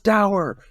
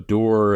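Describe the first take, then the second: First: The word is pronounced rhyming with sour. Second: The word is pronounced like door. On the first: The speaker calls it right. "It rhymes with sour" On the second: The speaker calls it wrong. "He calls it door three times"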